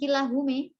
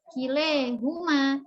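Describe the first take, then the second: First: The final vowel is shifted toward e. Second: The vowel after l is shifted toward e. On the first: The speaker calls it wrong. "Bukan kilahume" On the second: The speaker calls it right. "dibaca imalah itu alif setelah lam"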